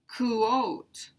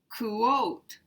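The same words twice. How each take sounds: First: The word is said as two syllables. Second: The same.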